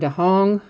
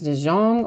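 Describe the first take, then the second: First: The J is said as an H. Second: The J is said as a hard J. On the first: "or if the J is supposed to sound like an H" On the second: "I don't know if it's a hard J"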